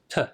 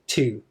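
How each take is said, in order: First: The vowel is a short weak schwa sound. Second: The vowel is a full clear oo sound. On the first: The speaker calls it right. "It becomes t" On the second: The speaker calls it wrong. "we don't say to"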